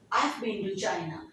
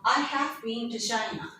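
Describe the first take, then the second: First: 'I have' is contracted to one syllable. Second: 'I have' is said as two full words.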